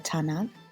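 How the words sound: The word begins with a voiceless T sound. This is the Western Armenian form. "T in Western Armenian"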